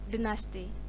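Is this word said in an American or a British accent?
British. It is said in a British accent. "in British English they pronounce dynasty"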